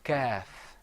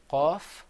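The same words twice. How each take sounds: First: Kaf said like an English K, near the front; light K-like kaf; Arabic kaf like a plain K. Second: Qaf said slowly from the very back of the throat; slow, throaty qaf; Arabic qaf drawn out from the throat; deep qaf. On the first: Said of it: "is kind of like a K sound". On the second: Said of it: "So say qaf". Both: Shown as a demonstration.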